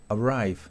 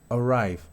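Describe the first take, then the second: The two takes are said the same way.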